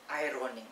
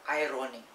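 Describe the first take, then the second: No difference in how they are said.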